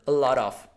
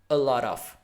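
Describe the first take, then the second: First: The T is softened and runs into the vowels. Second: The T is softened and runs into the vowels.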